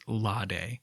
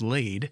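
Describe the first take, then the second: First: The name does not rhyme with shade. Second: The name rhymes with shade. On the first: The speaker calls it right. "the correct pronunciation of the island's name is Lade" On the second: The speaker calls it wrong. "wishes it was laid, so that kind of stupid rhyme above would work out"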